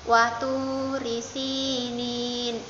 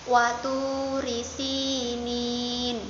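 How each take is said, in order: No difference in how they are said.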